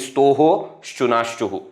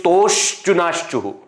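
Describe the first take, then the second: First: An extra 'ho' sound follows the first syllable. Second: No extra sound follows the first syllable. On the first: It makes the hidden visarga clear to listeners. "to emphasize I am changing the pronunciation" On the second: This is how the sutra actually sounds. "actually it is"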